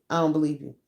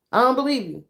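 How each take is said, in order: First: Said in the usual way. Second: I don't believe you said higher and louder; repeating I don't believe you, higher and louder; higher, louder take. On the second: Shown as a demonstration. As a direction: push the repeat up in disbelief.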